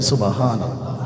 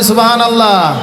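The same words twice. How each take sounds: First: It is said at normal, softer volume. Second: It is said louder.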